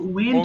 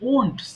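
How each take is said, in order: First: It begins with a 'w' glide, like 'went'. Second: It begins directly with a rounded 'o' vowel. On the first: The speaker calls it wrong. "উচ্চারণ কিন্তু ওয়েন্ট হবে না" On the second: The speaker calls it right. "এটা হবে ওন্ট, simply ওন্ট"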